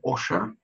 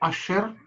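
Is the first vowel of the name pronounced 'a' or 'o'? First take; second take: o; a. First: The first vowel sounds like 'o'. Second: The first vowel sounds like 'a'.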